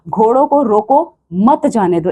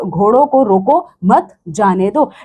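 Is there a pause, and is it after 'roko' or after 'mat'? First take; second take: after roko; after mat. First: There is a pause after 'roko'. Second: There is a pause after 'mat'.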